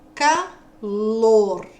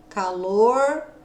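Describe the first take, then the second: First: The final R is said the standard way. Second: The final R is said the caipira way.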